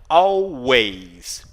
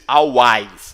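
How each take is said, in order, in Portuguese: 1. A segunda vogal soa como 'eh'. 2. A segunda vogal soa como um 'ah' aberto. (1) "ele é como se fosse um E" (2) "E não A, você não diz always, não"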